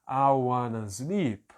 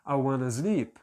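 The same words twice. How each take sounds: First: The phrase is spoken slowly and carefully. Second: The phrase is spoken at a moderate speed. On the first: "aí depois eu começo a acelerar um pouco mais" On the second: "Aí depois eu acelero um pouco mais"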